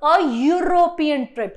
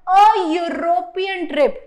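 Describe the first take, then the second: First: "a European trip" slow, the "Eu" as yoo; teacher repeating the yoo example; repeated example. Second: "a European" very slow, with the yoo sound clear; teacher demonstrating a before European; example with yoo sound. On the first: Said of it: "but it is sounding like य". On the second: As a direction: drawl "a European trip", stressing the yoo. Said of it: "For example". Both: Shown as a demonstration.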